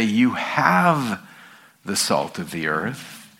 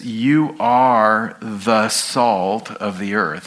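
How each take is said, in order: First: The wrong reading, "have" lifted, tail softened; stress on have. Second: "are" leaned on, slow and deliberate; slow, weighted "You are the salt of the earth."; stress on are. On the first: Pastor showing congregation the misreading, "have" lifted. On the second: Pastor to congregation, stressing "are" over "have". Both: Shown as a demonstration. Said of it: "He doesn't say".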